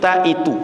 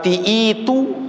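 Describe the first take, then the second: First: The first vowel is an a sound. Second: The first vowel is an i sound. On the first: The speaker calls it right. "tapi ta'itu" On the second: The speaker calls it wrong. "bukan uh"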